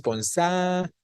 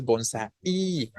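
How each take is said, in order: First: "bonsai" said as bon-SÁ-i, a long strong A then a short I; correct stress on A. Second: "bonsai" said as bon-sa-Í, the final I split off and held; wrong stress on I. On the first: Teacher showing what we do say, stressed long A. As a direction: hold the A in "bonsai", let the I follow lightly. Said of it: "Sino decimos bonsai". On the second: Teacher showing what we do not say, stressed final I. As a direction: misplace the stress in "bonsai" onto a long I. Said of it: "No decimos bonsai". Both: Shown as a demonstration.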